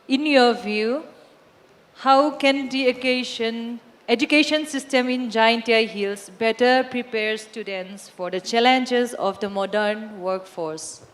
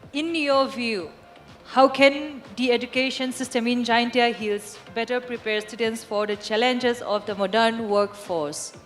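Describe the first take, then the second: First: It is read slowly. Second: It is read at normal speed.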